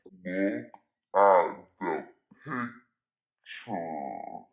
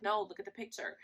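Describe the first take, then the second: First: Very low, drawn-out words with long gaps; emphatic deep repeat. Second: Said in the usual way. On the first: Retold or imitated. Telling boyfriend to really look, slow deep emphatic voice. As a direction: spell it out slowly in a mock deep voice.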